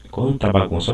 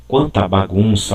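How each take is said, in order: First: Said in the usual way. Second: Dismayed exclamation. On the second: Shown as a demonstration. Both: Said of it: "olha aqui".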